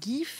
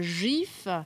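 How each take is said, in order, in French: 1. Il commence par un G dur. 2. Il commence par un J doux. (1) "pas un GIF" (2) "donc c'est un jet doux"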